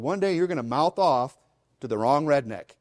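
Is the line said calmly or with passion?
passionate. It is said forcefully, with passion and vehemence.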